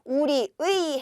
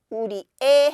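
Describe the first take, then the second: First: The last syllable is pronounced as 'ui'. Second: The last syllable is pronounced as 'e'. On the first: "우리 의 해도 되고요" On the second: "우리 에 해도 됩니다"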